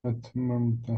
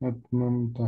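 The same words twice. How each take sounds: No difference in how they are said.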